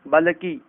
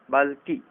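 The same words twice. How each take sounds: First: बल्कि said as "balaki"; wrong extra vowel. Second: बल्कि said as "balki"; correct joined consonants. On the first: Teacher showing the error, बल्कि with an added vowel. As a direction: slip an "a" between l and k in बल्कि. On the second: Teacher correcting it, बल्कि with joined lk. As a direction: join l and k directly in बल्कि. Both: Shown as a demonstration. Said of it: "सामान्य अशुद्धियां".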